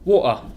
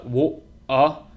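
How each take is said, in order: First: It is quicker, with a smooth, natural glottal stop. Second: It is slow, with an exaggerated glottal break. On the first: "as you speed it up and say it a bit more naturally" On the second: "we're exaggerating, so it will sound kind of strange"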